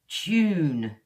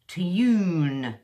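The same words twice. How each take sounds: First: It starts with a ch sound. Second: It starts with a carefully pronounced t. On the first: This is modern British English. "the way I would say it is tune, ch, ch, oo" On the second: This is how posh and elderly people say it. "they kind of really pronounce it"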